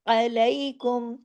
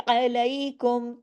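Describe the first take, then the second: Both takes have the same delivery.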